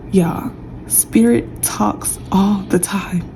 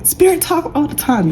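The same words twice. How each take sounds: First: Slow and soft, leaning on spirit; slow drawn-out statement. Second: Spirit thrown up high, falling to the end; high emphatic repeat. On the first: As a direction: let it sink in slowly, hushed. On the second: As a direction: pitch it up, hammer spirit home. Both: Acted. Repeating phrase in different ways.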